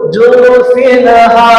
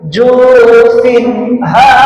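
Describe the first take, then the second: First: The n sound bounces with a vowel. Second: The n sound is short and clear. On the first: The speaker calls it wrong. "yang salah lagi pantun ... salah" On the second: The speaker calls it right. "mempraktikkan yang benar"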